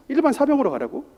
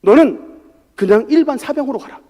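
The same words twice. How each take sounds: First: Disbelief. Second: Said in the usual way. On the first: Retold or imitated. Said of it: "참 이해가 안 됐습니다".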